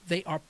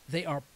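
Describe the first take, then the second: No difference in how they are said.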